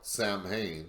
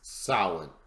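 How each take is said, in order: First: It is said letter by letter, like sam-hane. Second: It is said like sow-in, without an m sound. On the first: The speaker calls it wrong. "it looks like it's pronounced uh, spelled Samhain, but that's not the actual pronunciation" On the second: The speaker calls it right. "It's Samhain, S O, or, or if you wish, S O W I N"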